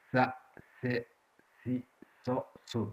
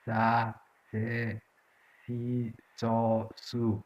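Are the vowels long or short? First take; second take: short; long. First: Each syllable ends in a short vowel. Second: Each syllable ends in a long vowel. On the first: "S added by a short vowel" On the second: "the long vowel it is"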